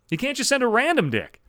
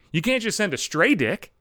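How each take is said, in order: First: "send" hit higher and harder; stress on send. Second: "can't" leaned on, falling at the end; stress on can't. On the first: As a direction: punch "send" up high in the repeat. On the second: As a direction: press "can't" and let the line fall. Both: Shown as a demonstration.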